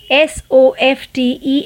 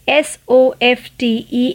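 The two takes are said the same way.

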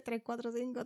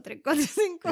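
First: Said in the usual way. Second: Tres cuatro cinco said loud and high; loud emphatic. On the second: Shown as a demonstration. Mom showing the shorter number to say, louder. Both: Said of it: "Isn't it more easier?".

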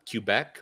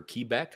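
First: Quebec said as "Cue-beck"; alternative pronunciation. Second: Quebec said as "Kee-beck"; alternative pronunciation. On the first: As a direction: start Quebec with a "kyoo" sound. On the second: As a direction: start Quebec with a long "kee" sound. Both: Shown as a demonstration. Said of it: "however it's pronounced".

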